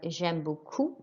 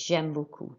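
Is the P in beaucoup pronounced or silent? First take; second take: pronounced; silent. First: The P in beaucoup is pronounced. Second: The P in beaucoup is silent. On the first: The speaker calls it wrong. "and I pronounced the P" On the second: The speaker calls it right. "And we don't pronounce the P"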